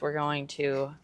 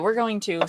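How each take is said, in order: First: It is said in a normal voice. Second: It is said in a silly put-on voice.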